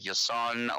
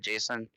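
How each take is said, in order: First: The name starts with a Y sound. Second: The name starts with a J sound. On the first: "pronounced like Yason" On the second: "or Jason"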